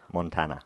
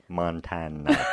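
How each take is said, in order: First: The word is said at a normal pace. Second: The word is said much more slowly. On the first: "one more"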